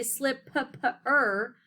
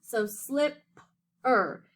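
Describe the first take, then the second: First: Slipper said slowly as slip-p-er, both Ps sounded; mock-wrong slip-p-er with a doubled P; wrong double sound. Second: Slip-er said slowly, one P sound; split into syllables. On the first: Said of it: "it doesn't say slip-p-er". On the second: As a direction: break slip-er into two slow beats. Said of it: "you only hear the P". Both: Shown as a demonstration.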